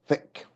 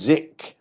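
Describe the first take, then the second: First: The word begins with a soft th sound. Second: The word begins with a buzzing z sound. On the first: The speaker calls it right. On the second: The speaker calls it wrong.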